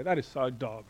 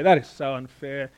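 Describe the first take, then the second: First: Lightly voiced teenager, casual; a hint of a teenager saying it; mild teen slang voice. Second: Said in the usual way. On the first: Shown as a demonstration. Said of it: "Teenagers would say". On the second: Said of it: "We would say".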